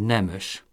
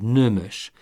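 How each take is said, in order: First: The first vowel is an unrounded e sound. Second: The first vowel is a rounded ö sound. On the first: "mondhatná úgy is, hogy nemös" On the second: "a nemes úgy mondja, hogy nömös"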